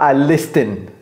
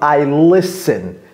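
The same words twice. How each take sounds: First: The t in listen is pronounced. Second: The t in listen is silent. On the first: The speaker calls it wrong. "Ce n'est pas I listen" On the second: The speaker calls it right. "Le T est silencieux"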